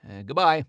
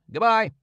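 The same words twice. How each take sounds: First: Said in the usual way. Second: Higher, louder farewell called out; bigger goodbye. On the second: Acted. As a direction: call it after him. Man's farewell repeated.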